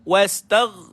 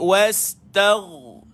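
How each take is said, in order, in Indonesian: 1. Bunyi gh terakhir dipotong pendek. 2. Bunyi gh terakhir terus mengalir. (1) "tak cukup" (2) "dia mesti berjalan bunyi dia"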